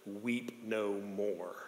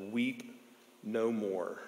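First: Very slow, very soft comfort; barely audible slow consolation; tender elder. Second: Hushed, tender comfort from the elder; hushed elder saying weep no more; gentle elder. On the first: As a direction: draw each word out gently. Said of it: "the elder leans over and says". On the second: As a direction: softly soothe a weeping man. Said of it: "looks over to him and says". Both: Retold or imitated.

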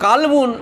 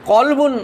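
First: কালবুন said with a long open a in the first syllable, the word meaning dog; কালবুন with a long first a, set against কলবুন; long vowel kalbun. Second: কলবুন said with a short clipped first vowel, the word meaning heart; কলবুন with a short first vowel, not the long a of কালবুন; short vowel qalbun. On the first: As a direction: stretch the a in কালবুন. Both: Shown as a demonstration. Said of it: "কালবুন একটুখানি পার্থক্য হয়ে গেল".

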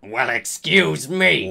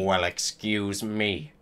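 First: Indignant first character at normal pitch; mildly angry. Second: Low, quiet second character, mildly angry; understated anger. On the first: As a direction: say it with a touch of angry offence. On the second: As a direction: echo the offence in a deep, softer voice. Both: A narrator's reading. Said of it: "They both shouted angrily".

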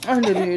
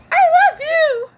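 First: Said in the usual way. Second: Very high, loud play-acting squeal; high-pitched, over-the-top adoration; squealed love declaration. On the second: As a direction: squeal it out in a tiny pretend voice.

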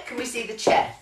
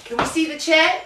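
First: Said in the usual way. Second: Much higher, lilting up to the audience; checking the crowd can see the chair; high checking question. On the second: Real, not acted. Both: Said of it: "can you see that on the chair?".

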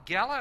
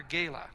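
First: "gala" with a short a, as in gal; first syllable of "gala" rhymes with pal. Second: "gala" with a long a, as in gale; first syllable of "gala" rhymes with day. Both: Shown as a demonstration. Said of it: "do you call it gala or gala".

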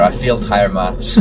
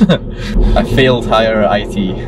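First: Said in the usual way. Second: Slow, laughing through the words. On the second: Real, not acted. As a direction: chuckle while admitting it.

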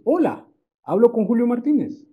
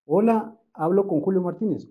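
First: "Hola, hablo con Julio Martínez" with a strong rising question on Martínez; strong question tune. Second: Said in the usual way. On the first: Shown as a demonstration. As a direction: lift the whole question, hola raised. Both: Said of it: "Dejo y entono muy fuerte la interrogación".

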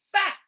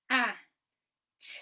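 First: FAT blended into one short word. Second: A and t as separate phonics sounds; short A, pause, then a lone t; sounding out. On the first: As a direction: join the sounds firmly into FAT. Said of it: "blend it back together". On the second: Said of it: "we sound out the word". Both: Shown as a demonstration.

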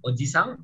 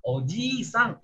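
First: "oji-sang" said briefly with short i; don't linger on the i of "oji-sang". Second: "oji-sang" higher with i held; long i. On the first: Teacher gives the word for uncle, short i in "oji-sang". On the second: Teacher gives the word for grandfather, long i in "oji-sang". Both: Shown as a demonstration. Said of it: "Beda I-nya panjangnya".

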